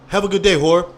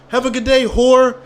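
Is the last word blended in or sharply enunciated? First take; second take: blended; enunciated. First: The last word slides in smoothly and unnoticeably. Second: The last word is crisply enunciated with a pop. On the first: The insult goes unnoticed by the listener. The speaker calls it right. "nobody would ever notice" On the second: The insult is too obvious to hide. The speaker calls it wrong. "my enunciation would be like"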